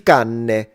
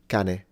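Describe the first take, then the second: First: The n sound is held long, doubled. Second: The n sound is short and single. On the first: The speaker calls it wrong. "I've heard foreigners mispronounce the one on the left and say" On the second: The speaker calls it right. "This is cane"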